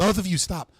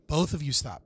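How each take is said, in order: First: Loud, firm command; heated family shouting. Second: Said in the usual way. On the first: Real, not acted. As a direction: shout them both down. Moderator shouting both down.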